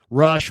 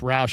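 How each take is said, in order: First: The vowel sounds like the one in 'brush'. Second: The vowel sounds like the one in 'couch'. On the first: Someone else says the name this way. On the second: This is how the speaker says the name.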